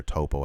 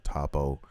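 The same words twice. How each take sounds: First: Topo with a long first o; Topo, first syllable like "toe"; alternative pronunciation. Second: Toppo with a short, open first o; Toppo, first syllable like "top"; first pronunciation. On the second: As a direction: say Toppo as TAH-po. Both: Shown as a demonstration. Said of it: "however you wanna pronounce his name".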